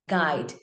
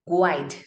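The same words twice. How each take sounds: First: The u is silent, with no w-sound. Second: The u is sounded, giving a w-sound. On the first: The speaker calls it right. "skip your U" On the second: The speaker calls it wrong. "and not guide"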